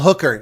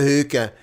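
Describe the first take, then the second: First: The word is said in a plain accent. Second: The word is said in a Scottish accent. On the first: "It's a hooker, not a hookah" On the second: "this Scottish accent. He's a hookah"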